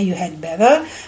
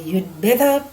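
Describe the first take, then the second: First: The word had is said in full. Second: Had is shortened to a d sound. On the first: "kalau dibaca misalnya you had better" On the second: "mau dipendekkan jadi"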